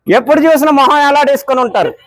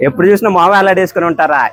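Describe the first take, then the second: First: Squeaky, cheeky sidekick voice pitched up; high put-on voice. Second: Said in the usual way. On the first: Prankster teasing the uncle at the tea stall in a high squeaky voice. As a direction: tease him in a high silly voice.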